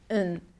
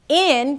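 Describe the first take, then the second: First: The word has a weak, neutral vowel. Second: The word has a full, clear vowel.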